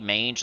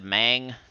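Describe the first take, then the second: First: The name sounds like the start of 'mangy'. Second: The name sounds like the start of 'mangle'. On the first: "it could be mange like mangy" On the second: "I've always said mang because of like mangle"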